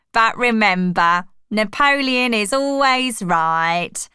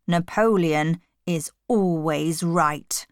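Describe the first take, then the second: First: Emphatic proclamation. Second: Slow, measured slogan; solemn pronouncement. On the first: Squealer quotes Boxer's last words to animals, emphatic. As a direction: drive the slogan home theatrically. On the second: Napoleon recites Boxer's saying at the meeting, solemn. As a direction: state it gravely, word by word. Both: A narrator's reading.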